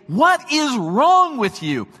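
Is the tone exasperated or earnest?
exasperated. It is asked in an exasperated scolding tone.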